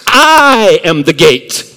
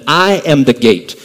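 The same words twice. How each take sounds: First: It is said with strong, forceful emphasis. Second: It is said plainly, without special emphasis.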